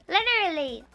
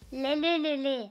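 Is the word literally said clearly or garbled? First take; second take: clear; garbled. First: The word is said clearly with distinct l sounds. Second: The word comes out as blurred l and r sounds. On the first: The speaker calls it right. "And I was like" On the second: The speaker calls it wrong. "She's doing best to pronounce literally"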